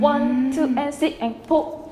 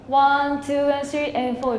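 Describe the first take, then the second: First: Each count is cut off sharply. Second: The counts flow smoothly into each other.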